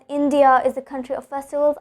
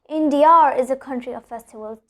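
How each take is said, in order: First: No R sound links 'India' to 'is'. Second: An R sound links 'India' to 'is'. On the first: The speaker calls it wrong. "I will not be telling it as" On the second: The speaker calls it right. "I'll be telling it as"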